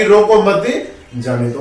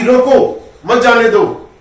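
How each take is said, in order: First: रोको मत joined, short break, then जाने दो; pause after मत. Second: Firm रोको, short break, then मत जाने दो; pause after रोको. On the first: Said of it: "रोको मत के पीछे लगा दूं". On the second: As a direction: keep मत with जाने दो, set apart from रोको. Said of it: "ये विराम मैंने अगर यहां लगा दिया". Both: Shown as a demonstration.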